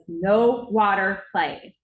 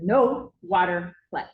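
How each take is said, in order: First: Louder, very slow, each word hammered; secretary losing patience, laying down the law; stern secretary scolding. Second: Slow, firm no water play rule; secretary calmly setting the rule; firm secretary warning. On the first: Secretary scolding Braden after slamming the faucet, loud stern and slow. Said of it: "slams the faucet off". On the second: Secretary telling Braden at the sink, firm and slow. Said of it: "and said". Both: Retold or imitated.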